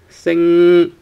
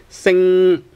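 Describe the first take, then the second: Both takes have the same delivery.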